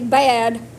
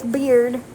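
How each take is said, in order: First: It sounds like 'bad', with no r. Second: It sounds like 'beard', with an r. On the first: This is how other people usually say it. The speaker calls it wrong. "That's how everybody says that" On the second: This is the proper form of the name. The speaker calls it right. "It's beard, not bad"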